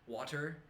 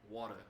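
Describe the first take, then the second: First: The final R sound is pronounced. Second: The final R sound is dropped. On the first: "maybe in California they say like bottle of water" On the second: "They don't even say the R anymore"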